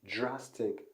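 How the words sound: It starts with a 'j'-like sound. "But she said j, j"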